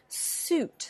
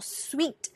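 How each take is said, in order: First: It sounds like one syllable, suit. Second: It sounds like one syllable, sweet. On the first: The speaker calls it right. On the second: The speaker calls it wrong.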